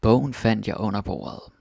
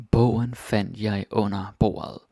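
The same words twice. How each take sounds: First: Said in the usual way. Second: Slowed sentence with a clear weight on Bogen; slow teaching read; slow, careful reading. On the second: Shown as a demonstration. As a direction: spell it out word by word for learners. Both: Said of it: "Some more examples of that".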